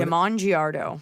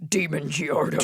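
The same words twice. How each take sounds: First: Slow "Damon Giardo", with Damon said duh-MON. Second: "Demon Giardo", first name said DEE-mun; Damon as DEE-mun. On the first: Co-host reading out the asker's name, "Damon" pronounced duh-MON. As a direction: say "Damon" as duh-MON, stress on the second syllable. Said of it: "is it Demon?". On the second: Co-host trying another reading of the asker's name, "Demon" pronounced DEE-mun. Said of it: "Is it Demon?". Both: Shown as a demonstration.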